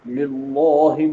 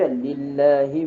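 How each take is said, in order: First: The l is heavy and thick. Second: The l is light and thin. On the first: The speaker calls it wrong. "itu lafzul jalalah yang mesti ditartib" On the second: The speaker calls it right. "Dia ringan sebabnya baris bawah"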